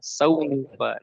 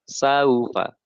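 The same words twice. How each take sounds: First: The diphthong is pronounced sharply and abruptly. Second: The diphthong is pronounced softly and smoothly. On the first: The speaker calls it wrong. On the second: The speaker calls it right.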